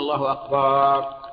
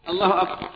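First: The vowel after the b is drawn out long. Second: The word ends short, with no long vowel. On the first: It means drums, a plural of the word for drum. The speaker calls it wrong. "وهذا غلط" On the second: It means God is greatest. The speaker calls it right. "يريدون الله أكبر"

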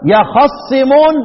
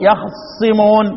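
First: The vowel after the kha is fully pronounced. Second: The vowel after the kha is quickly shortened. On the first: "تمكين الحركة ونطقها نطقا صحيحا" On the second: "واختلاس الحركة"

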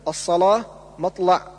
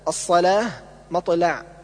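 First: The l sound is thick and heavy. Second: The l sound is thin and light. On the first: The speaker calls it wrong. "تغليظ اللام" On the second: The speaker calls it right. "والصواب"

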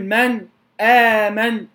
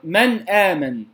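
First: The noon stops briefly before the next word. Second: The noon flows straight into the next word. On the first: The speaker calls it wrong. "لا أقول من آمن، هذه في قراءة أخرى" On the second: The speaker calls it right. "لكن هنا الإظهار من آمن"

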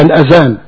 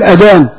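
First: The middle consonant is a 'dh' sound. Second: The middle consonant is a plain 'd' sound. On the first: "هي الأذان" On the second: "زي ما احنا بنقول الأذان"

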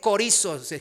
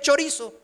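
First: The word begins with a k sound. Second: The word begins with a ch sound. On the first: "se dice corizo, la fonética" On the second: "se escribe chorizo, como lo que ya ahora quiero comer"

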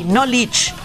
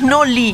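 First: The word ends with its final consonant sound. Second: The word ends without its final consonant sound. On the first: The speaker calls it right. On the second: The speaker calls it wrong. "No es Noli"

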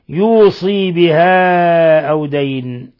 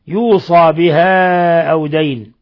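First: The vowel after the s is a long i. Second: The vowel after the s is a long a. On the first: "بكسر الصاد وياء بعدها" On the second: "بفتح الصاد وألف بعدها"

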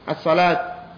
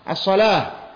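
First: The word ends with a clear t sound. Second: The word ends with a soft h sound. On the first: "dengan engkau katakan ta, yaitu dengan ta" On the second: "Yang ma'ruf yaitu al-wukuf bil-ha"

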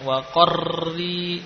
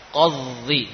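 First: The doubled R has a long, heavy trill. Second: The R is said with no trill at all. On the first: "tidak seperti ini" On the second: "jangan kemudian karena kita berhati-hati akhirnya tidak menggetarkan sama sekali"

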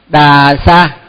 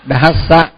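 First: The first consonant is plain, with no breathy release. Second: The first consonant has a strong, breathy release. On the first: The speaker calls it wrong. "mình cứ đọc là đà sa, nhưng mà đà sa là không đúng" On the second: The speaker calls it right. "phải đọc là dhassa dhassa mới đúng"

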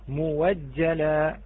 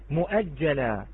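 First: The word is said with a w sound. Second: The word is said with a glottal stop.

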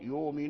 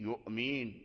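First: The glottal stop becomes a long vowel. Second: The glottal stop is clearly pronounced. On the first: The hamza is eased for lighter pronunciation. "ورش يقرأ المؤمنون، يؤمن" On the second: The hamza is kept in its original form. "ولكن قالون يهمز"

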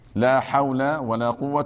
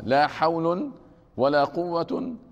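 First: Both nouns end in a short a vowel. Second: Both nouns end in an -un sound. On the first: "فتحهما يعني يكون الأول والثاني مبنيين على الفتح" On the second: "الوجه الثاني رفعهما"

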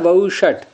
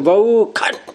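First: The middle consonant is pronounced as sh. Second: The middle consonant is pronounced as kh. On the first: This is the actual form of the word. "शब्द क्या है" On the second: This follows the southern ritual tradition. "शाह को ख बोलने की मूर्धन्य षकार को, तो ऐसे बोलेंगे"

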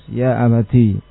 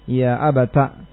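First: The word ends in a long i vowel. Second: The word ends in a short a vowel. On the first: "dengan menetapkan ta dan ya-nya sekaligus" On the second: "dengan menfathah ta'nya"

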